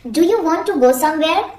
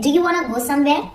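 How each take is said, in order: First: 'Want to' is said as two full words. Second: 'Want to' is run together as 'wanna'.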